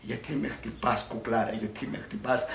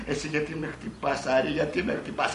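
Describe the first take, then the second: First: Lightly voiced puzzled man; understated male lover; film lover. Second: Lightly voiced complaining woman; a hint of female protest; film heroine. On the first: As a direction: play the man asking, in nearly your own pitch. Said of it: "Ναι, αυτός". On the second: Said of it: "Αυτή".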